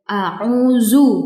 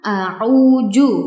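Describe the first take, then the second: First: The last consonant is a z sound. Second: The last consonant is a j sound. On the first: "bukan ya" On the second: "bukan a'uju"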